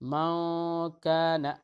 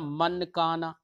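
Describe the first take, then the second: First: The n is hidden as a nasal sound. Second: The n is pronounced fully and clearly. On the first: The speaker calls it right. "दोनों के बीच की हालत को हमने अदा किया" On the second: The speaker calls it wrong. "ये भी नहीं पढ़ा"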